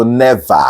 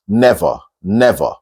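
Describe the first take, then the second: First: "never" said as neh-VAH; open AH ending. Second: "never" said as NEV-or, rounded second vowel; OR-like ending. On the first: Teacher mimicking some people, "never" ending in AH. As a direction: open the end of "never" into a full AH. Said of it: "Some people go never". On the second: Teacher modelling the right way, "never" as NEV-or. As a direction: end "never" as if spelt nevor. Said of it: "As if, as if you're pronouncing it N E V O R". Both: Shown as a demonstration.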